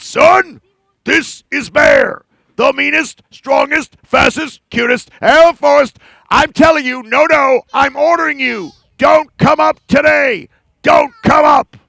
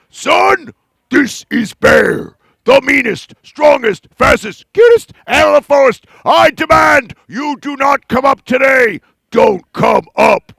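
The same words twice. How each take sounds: First: Loud, angry bear ordering the sun; furious bragging bear; angrier bear. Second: Loud, slow bear hiding his nerves; blustering bear with a hint of nerves; nervous mean bear. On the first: Acted. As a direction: bellow like an angry bully. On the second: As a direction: put on a mean face over the nerves. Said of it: "Bear got very nervous".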